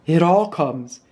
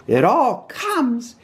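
First: Understated grumble in mid pitch; mildly cross. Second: High, slow, drawn-out scolding; stern Rabbit. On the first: Pooh stuck in the doorway, mildly cross. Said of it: "said Pooh crossly". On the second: Rabbit lecturing stuck Pooh, slow and stern. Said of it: "said Rabbit sternly". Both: A narrator's reading.

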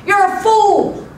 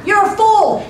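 First: High, loud acted taunt; aggravated yell. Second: High, loud yell thrown back; echoed taunt. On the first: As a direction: yell it like an annoyed little boy. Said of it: "got aggravated and yelled". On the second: Acted. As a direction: mimic the boy's taunt as an echo. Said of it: "The voice came back".

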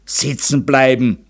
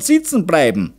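First: Grumbling. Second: High-pitched, emphatic close to a lecture; lecturing. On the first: Father echoes his wife's warning, grumbling. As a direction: grumble the words back, a touch resentful. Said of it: "grollte Meister Zauner". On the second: Mother warns husband the girl will stay unwed, lecturing. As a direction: drive the point home as a lecturing mother. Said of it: "dozierte die Zaunerin". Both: A narrator's reading.

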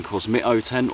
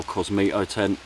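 First: "Cosmito" with a short i in the middle; first of two ways to say "Cosmito"; alternative pronunciation. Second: "Cosmito" with a long ee in the middle; second way to say "Cosmito", with ee; alternative pronunciation. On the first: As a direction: say "Cosmito" as koz-MIT-oh. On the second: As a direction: say "Cosmito" as koz-MEE-toh. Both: Shown as a demonstration. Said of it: "however you want to pronounce it".

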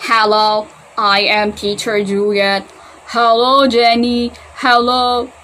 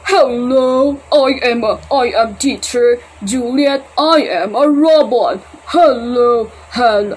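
First: Slow, louder robot speech; toy robot voice. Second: Slow, louder mock robot; slow and stiff like a toy robot, lightly done. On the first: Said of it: "Paano ba na si robot?". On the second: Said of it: "Ah, hindi, hindi. Mali". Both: Shown as a demonstration.

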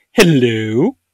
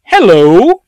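First: Drawn-out hello, dipping then rising; second artillery greeting. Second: Loud, high, swooping hello; greeting as looming artillery. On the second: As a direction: call out a mock-cheery greeting. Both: Acted. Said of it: "sitting there to go".

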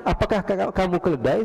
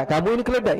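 First: "Apakah ka-, kamu keledai" asked without accusation; mere question. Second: "Kamu ini keledai" higher, falling at the end; accusing statement. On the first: Man only asking the caliph, "kamu keledai" as a mere question. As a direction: ask "kamu keledai" as a simple inquiry. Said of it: "ini dia cuma bertanya". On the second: Hypothetical man insulting the caliph, "Kamu ini keledai" as an accusation. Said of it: "ya beda". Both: Shown as a demonstration.

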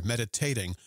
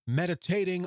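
First: "meditating" stressed firmly on the first syllable, MED-i-tat-ing; corrected stress. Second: "meditating" with the stress slipped off the first syllable onto a later one; wrong syllable stressed. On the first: Shown as a demonstration. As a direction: carefully say "meditating" with the weight on MED, a touch lower. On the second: Real, not acted. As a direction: say "meditating" mis-stressed, weight landing after the first syllable. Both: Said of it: "I put the emphasis on the wrong syllable there".

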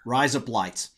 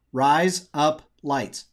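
First: "Rise up lights" at normal speed in a light Australian accent; tossed-off "Rise up lights" in a light Australian accent; mock Australian accent. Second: "Rise up lights" drawn out slowly in a light Australian accent; slow mock Australian accent. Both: Shown as a demonstration. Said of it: "with an Australian accent".

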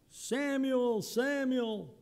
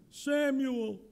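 First: High, far-off calling voice; voice of God calling. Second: A hint of a Jewish accent, higher; lightly Jewish-accented calling of Samuel. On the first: Pretend. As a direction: call the name from above. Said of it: "my reading of it would be". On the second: Shown as a demonstration. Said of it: "just a hint of a Jewish accent there".

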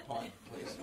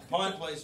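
First: Very soft, low, near-whispered order; imagined meek thought. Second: Said in the usual way. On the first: Acted. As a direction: mimic his timid inner voice, barely audible. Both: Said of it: "He's thinking".

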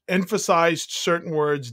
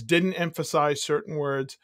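First: "emphasized" given extra weight; light emphasis on "emphasized"; stressed words. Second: Said in the usual way. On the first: Shown as a demonstration. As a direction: lean on EMPHASIZED, lifting it above the rest.

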